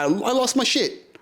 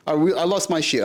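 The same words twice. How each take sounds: First: Much higher, exasperated; exasperated high pitch; higher emphatic. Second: Said in the usual way. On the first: Real, not acted. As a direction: throw it up high in disbelief.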